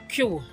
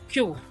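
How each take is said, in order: Both takes have the same delivery.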